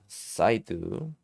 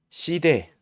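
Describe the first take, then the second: First: The vowel sounds like the letter name 'eye'. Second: The vowel sounds like a short 'ee'. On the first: The speaker calls it right. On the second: The speaker calls it wrong.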